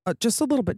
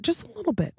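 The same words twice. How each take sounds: First: Said in the usual way. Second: High, soft little squeak; squeaky voice. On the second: Real, not acted. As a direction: squeak it out small and sheepish. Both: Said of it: "do kind of scare me".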